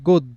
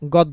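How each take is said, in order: First: The first vowel is a closed 'oh' sound. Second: The first vowel is an open 'aw' sound. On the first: The speaker calls it right. "ও এর মতো" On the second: The speaker calls it wrong. "গদ্য বলবো না"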